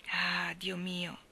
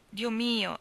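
First: Very slow, soft drawn-out cry of dismay; slow stricken sigh of Dio mio; anguished exclamation. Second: A firmer repeat falling at the end; exclaiming. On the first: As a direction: let the ah stretch out in quiet despair. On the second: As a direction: push the second Dio mio out. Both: Acted. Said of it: "esclamò Landry".

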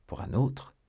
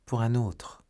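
First: Higher, questioning lift on "autre"; hushed, mildly taken-aback question; echoed question. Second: Said in the usual way. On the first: A narrator's reading. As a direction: echo it back as a question, lifting "autre". Lover echoes maid's answer as question.

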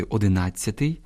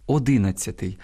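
First: "одинадцятий" stressed on "над"; correct stress. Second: "одинадцятий" stressed on "ди"; wrong stress. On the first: Teacher correcting the error, "одинадцятий" stressed on "над". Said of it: "а грамотно сказати". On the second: Teacher quoting a common error, "одинадцятий" stressed on "ди". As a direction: misplace the stress onto "ди" in "одинадцятий". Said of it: "неправильне наголошування слів". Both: Shown as a demonstration.

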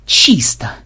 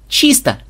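First: Short grunted all-clear; curt grunt. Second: High, quick call; high-pitched all-clear. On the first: A narrator's reading. Programmer clearing a room reports, gruff grunt. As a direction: grunt it to a teammate. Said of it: "буркнул Ксенобайт". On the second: Acted. Melissa answering from the corridor's far side, high call. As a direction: call it out to a teammate.

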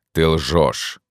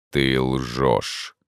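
First: Accusing. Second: Low, cool, unbothered; cold-blooded. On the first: Ghost accuses. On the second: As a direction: state it with icy calm. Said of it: "хладнокровно отвечал призрак". (хладнокровно) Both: A narrator's reading.

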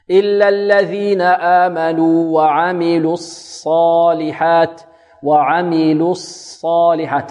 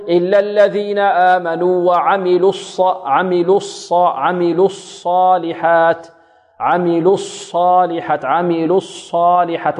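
First: Slow chant, lips released from rounding before the ص of "الصالحات"; measured recitation with a clean unrounded ص in "الصالحات"; lips drawn back. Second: Demonstrating a student's rounded ص in "الصالحات"; mistaken lip rounding. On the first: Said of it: "ترد الشفتين". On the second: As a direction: chant with lips kept rounded through the ص of "الصالحات". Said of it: "بعض الطلاب يضم الشفتين في الصاد الساكنة". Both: Shown as a demonstration.

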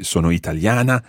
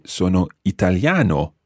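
First: Italiana said with a final A sound; wrong ending for a man. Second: Italiano said with a final O sound; right masculine ending. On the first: Teacher shows the form he would not use. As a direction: sono italiana ending on -ana. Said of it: "I wouldn't say". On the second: Teacher gives his own correct masculine form. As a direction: sono italiano ending clearly on -ano. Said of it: "I would say". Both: Shown as a demonstration.

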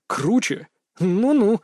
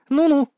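First: Teasing echo of her scoff, pitched up; mock her back with a falling tune; mimicking her. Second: Mocking, high-pitched and louder with a falling tune; насмешливое фырканье. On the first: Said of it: "передразнил я её". (передразнивая, повыше, с издёвкой) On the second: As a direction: scoff dismissively, pitched well up. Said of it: "фыркнула она насмешливо". (насмешливо, высоко, с пренебрежением) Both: A narrator's reading.

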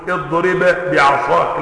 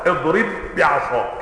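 First: "اضرب بعصاك" with the ب not merged, read slowly; wrong unmerged reading. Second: "اضرب بعصاك" with one doubled ب, the bb held; merged doubled ba. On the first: Teacher showing the wrong way to say "اضرب بعصاك". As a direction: read "اضرب بعصاك" separating the two ب sounds. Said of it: "مش هتقول". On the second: Teacher showing the correct merged "اضرب بعصاك". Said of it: "لا". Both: Shown as a demonstration.

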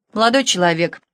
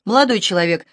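First: Raised voice. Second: Said in the usual way. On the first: A narrator's reading. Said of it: "возвысила голос Александра".

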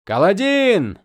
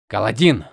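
First: Loud urgent call. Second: Alarmed shout of a name; worried call. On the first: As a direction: call his name across the field. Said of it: "позвал кто-то". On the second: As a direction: call out in sudden worry. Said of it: "раздался встревоженный голос Моша". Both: Acted.

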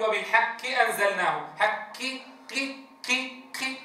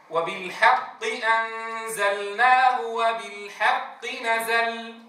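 First: وبالحق أنزلناه with ق thinned almost to k; over-thinned ق. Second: Slow chanted وبالحق أنزلناه with a true q; lightly emphatic ق. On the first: Teacher shows the error in وبالحق, q weakened to k. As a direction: lighten the ق before i until it sounds like ki. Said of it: "المبالغة في إضعاف تفخيمها حالة كسرها". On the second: Teacher recites the correct وبالحق, slow, q kept. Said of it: "في أدنى مراتب التفخيم". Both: Shown as a demonstration.

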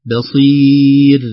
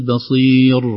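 First: بصير drawn out very slowly and loud, ending in a light ra; correct pause on بصير. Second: بصير ended with a heavy ra; the mistaken بصير, with a thick final ra; wrong pause on بصير. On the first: Teacher to students, showing the pause on بصير. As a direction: stop on بصير with a light final ra. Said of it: "عند الوقف على الراء". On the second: Teacher to students, showing the wrong pause on بصير. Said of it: "وليست". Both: Shown as a demonstration.

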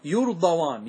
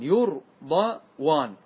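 First: Said in the usual way. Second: يرضوان drawn out very slowly, each sound held; very slow, stretched. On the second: Shown as a demonstration. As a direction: stretch يرضوان so students hear the واو. (نطق ممطوط جدا لكلمة يرضوان) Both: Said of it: "انظر المثال عندك".

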